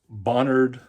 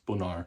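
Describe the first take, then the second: First: Alabama style, with the final D pronounced. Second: French style, with the final D silent.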